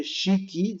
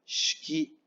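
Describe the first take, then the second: First: Shiki as two syllables, "shi-ki"; fully sounded I. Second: Shiki squeezed to "shki"; silent first I. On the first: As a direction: voice the first I of shiki clearly. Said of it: "no se lee shiki". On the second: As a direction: run "sh" straight into "ki" in shiki. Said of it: "sino se lee shiki". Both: Shown as a demonstration.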